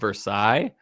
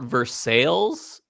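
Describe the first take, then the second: First: It is said the French way. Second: It is said the local Kentucky way.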